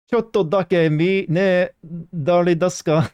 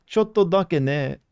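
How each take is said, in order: First: High, slow hammed-up Japanese; mock Japanese. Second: Slow, high "Chotto dake ne"; careful Japanese. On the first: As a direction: sing the phrase up high and slow. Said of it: "Wasn't expecting that". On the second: Pretend. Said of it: "I don't know if this is actually accurate".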